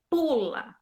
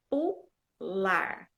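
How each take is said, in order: First: Pula read with a stretched, stressed PU; tônica no PU. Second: Pular split into PU, LAR, final R sounded; tônica no LAR. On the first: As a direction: lean into PU and let LA fall in pula. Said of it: "você pode até enfatizar". ("pula" com ênfase no PU) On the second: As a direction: separate the syllables of pular, weight on LAR. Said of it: "Quando a gente põe o R, fica". ("pular" silabado, com R final e LAR forte) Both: Shown as a demonstration.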